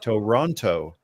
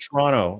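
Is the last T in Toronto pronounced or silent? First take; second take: pronounced; silent. First: The final T is clearly pronounced. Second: The final T is silent. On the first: This is how Americans say it. The speaker calls it wrong. "hear people in America talk about Toronto, it's always funny because they always pronounce it" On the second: This is how locals say it. The speaker calls it right. "it's pronounced Toronto, like the movie Tron ... that last T does not get pronounced"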